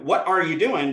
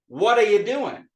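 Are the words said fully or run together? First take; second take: fully; run together. First: Each word is said separately and fully. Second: The words run together into a reduced form.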